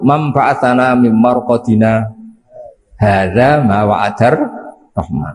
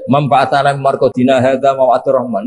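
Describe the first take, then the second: First: It has a brief pause after marqadina. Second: It is read straight through without a pause.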